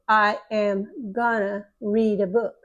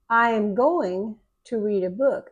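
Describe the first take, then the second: First: The words 'going to' are reduced to 'gonna'. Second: The words 'going to' are said in full.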